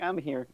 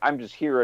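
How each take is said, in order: First: It is said passively. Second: It is said aggressively.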